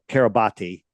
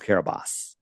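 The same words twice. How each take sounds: First: The name is read letter by letter as spelled. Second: The name is said differently from its spelling. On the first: "It's spelled" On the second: "but it's pronounced"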